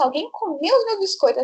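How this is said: It is said in a shocked, upset tone. The cookies were important and saved for later.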